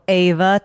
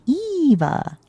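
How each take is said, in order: First: The name begins with an A vowel sound. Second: The name begins with an E vowel sound. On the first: The speaker calls it wrong. "people go Ava thinking they're saying my name in Spanish, and they're not" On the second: The speaker calls it right. "no, it's with an E"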